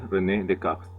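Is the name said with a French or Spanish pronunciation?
French. The name is said with French pronunciation. The speaker calls it right.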